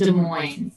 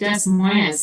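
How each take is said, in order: First: The name is said with French pronunciation. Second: The name is sounded out letter by letter. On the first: The speaker calls it right. "but it's pronounced Des Moines. So it's a French word" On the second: The speaker calls it wrong. "It looks it looks like Des Moines, like that"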